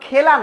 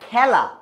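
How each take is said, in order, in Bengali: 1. প্রথম স্বরধ্বনিটি একটি সাধারণ e ধ্বনি। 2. প্রথম স্বরধ্বনিটি একটি বিকৃত, খোলা e ধ্বনি। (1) "এটা তো খেলা না" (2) "এটা খেলা"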